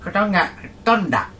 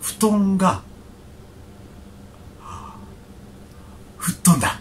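First: It is said plainly without a pause. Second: There is a held pause before 吹っ飛んだ.

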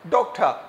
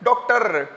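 First: The final R is barely pronounced. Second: The final R is strongly pronounced. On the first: The speaker calls it right. "should be like" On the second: The speaker calls it wrong. "हम लोग कहते हैं"

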